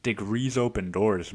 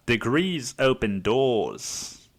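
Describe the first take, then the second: First: Said in the usual way. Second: Put-on very slow, stretched Aussie accent; hammed-up Australian sage. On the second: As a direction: draw it out in mock Australian. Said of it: "say it in a fucking Australian accent".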